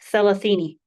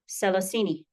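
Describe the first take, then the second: First: The word begins with a th sound. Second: The word begins with an s sound. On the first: "proper coastal Swahili" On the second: "don't be surprised if you hear"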